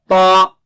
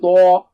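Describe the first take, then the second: First: The t is followed directly by the vowel. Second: The t is followed by a rounded w-sound. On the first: The speaker calls it right. "Don't make your lips round" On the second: The speaker calls it wrong. "Don't say twa"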